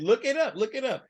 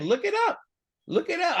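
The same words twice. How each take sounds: First: Said in the usual way. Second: High-pitched imitation of the look-it-up line; mimicking his repeated line. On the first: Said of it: "I loved it". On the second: Co-host quoting the speaker's catchphrase, high mimic. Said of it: "That's why he kept saying".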